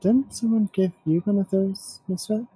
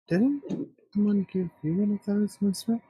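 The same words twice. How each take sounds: First: It is said loudly. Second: It is said quietly.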